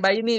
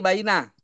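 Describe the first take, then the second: First: The word ends with an 'i' vowel. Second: The word ends with an 'a' vowel. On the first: The speaker calls it wrong. "bukan bukan di baini" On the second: The speaker calls it right.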